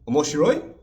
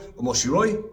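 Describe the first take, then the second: First: The voice rises at the end. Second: The voice stays level or falls at the end. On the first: It asks whether something is interesting. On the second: It states that something is interesting.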